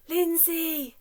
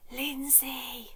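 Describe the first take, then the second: First: High, loud shouted name; big shout. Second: Whispered name; whispered name, very soft. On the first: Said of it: "so loudly that you can't even hear". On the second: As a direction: breathe the name softly. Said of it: "I'll whisper mine". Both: Shown as a demonstration.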